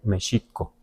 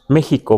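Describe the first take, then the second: First: The x is an sh sound. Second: The x is a raspy h sound. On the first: This is closest to the original Nahuatl. "le damos un sonido de sh, no de X" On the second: This is how Mexicans usually say it. "Y pronunciamos México, ¿verdad? Con J"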